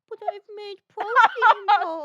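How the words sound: It is said in a childish baby voice.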